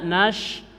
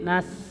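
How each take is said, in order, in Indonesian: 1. Konsonannya adalah bunyi sh. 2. Konsonannya adalah bunyi s yang tipis dan mendesis. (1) "jangan dibaca nash" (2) "tapi nas ngejebeng"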